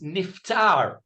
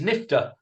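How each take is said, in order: First: The word ends with a clear final r sound. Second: The word ends without a final r sound. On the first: "the real word is niftar" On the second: "as we would say"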